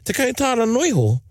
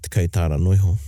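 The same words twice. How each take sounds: First: It sounds like a disappointed, indignant question. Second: It sounds like a dismissive, offhand appraisal. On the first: The speaker feels shortchanged by the amount. "And then my reply would go, ... Oh, what, oh, just $10? are you only giving me $10?" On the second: The thing is worth only a small amount. "you could even turn around the other way, like, yeah, what do you think that's worth?"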